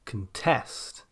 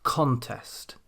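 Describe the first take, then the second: First: "contest" as the verb, con-TEST; weak first syllable, land on the end of "contest"; "contest" stressed on TEST; second-syllable stress. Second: "contest" as the noun, CON-test; "contest" stressed on CON, falling away; first-syllable stress. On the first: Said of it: "stress on the second syllable". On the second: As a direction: hit the first syllable of "contest" with a full vowel. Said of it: "stress on the first syllable". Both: Shown as a demonstration.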